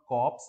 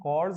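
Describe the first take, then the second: First: The word is said with a p sound. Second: The word is said without a p sound. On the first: The speaker calls it wrong. "This is not कॉप्स जो दिख रहा है आपको" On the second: The speaker calls it right. "इसका pronunciation कॉर्स होता है"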